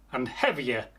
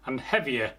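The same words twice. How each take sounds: The two takes are said the same way.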